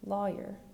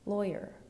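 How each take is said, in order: First: The first vowel sounds like the one in flaw. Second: The first vowel sounds like the one in boy. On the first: "ah as in flaw" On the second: "oi as in boy"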